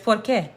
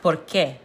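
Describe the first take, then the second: First: Said in the usual way. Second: "qué" punched in "por qué"; emphasis on qué. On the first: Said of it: "There is no accent". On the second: Shown as a demonstration. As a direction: say "por qué" with a firm accent on the last word, "qué". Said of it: "put more emphasis on it".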